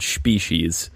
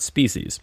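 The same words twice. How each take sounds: First: The word is pronounced in a slurred way. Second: The word is pronounced in the standard way. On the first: The speaker calls it wrong. "I'm a little drunk because I said species" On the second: The speaker calls it right. "and not species"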